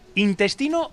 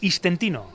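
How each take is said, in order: First: The word begins with in, then test. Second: The word begins with is, then tent. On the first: "¿Intestino o istentino?" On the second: "Pero vale istentino también"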